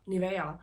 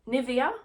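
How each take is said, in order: First: It is a confident Swedish pronunciation. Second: It is a hesitant attempt at an English pronunciation. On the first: "In Swedish it's Nivea" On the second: "I don't know how you say that in English"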